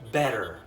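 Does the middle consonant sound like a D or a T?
D. The middle T sounds like a soft D. "The T's that I'm referring to in an American accent are pronounced like D's"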